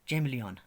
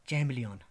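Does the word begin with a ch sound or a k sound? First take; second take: ch sound; ch sound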